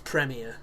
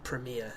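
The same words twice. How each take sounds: First: The word has a non-American pronunciation. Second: The word has an American pronunciation. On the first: "to me it's Premiere, because that's how we speak in this country" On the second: "as Americans say"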